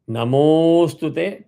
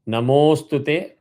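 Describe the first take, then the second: First: The vowel is held two extra beats. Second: The vowel is held one extra beat. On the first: "two avagraha" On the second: "sorry, one avagraha"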